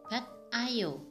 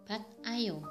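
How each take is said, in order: The two takes are said the same way.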